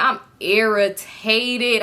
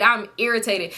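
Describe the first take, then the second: First: Drawn out very slowly, word stretched; irritated. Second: Said in the usual way. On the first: Retold or imitated. Storyteller fed up with the dare game, irritated.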